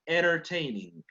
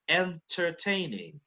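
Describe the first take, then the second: First: The T after the N is dropped. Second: The T after the N is clearly sounded. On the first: "But for an American, entertaining" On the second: "for a British person, it would be entertaining"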